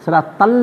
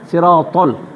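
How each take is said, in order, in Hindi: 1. पहला व्यंजन हल्का और पतला है। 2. पहला व्यंजन भारी और मोटा है। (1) "न" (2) "सिरोतल मोटो आहे"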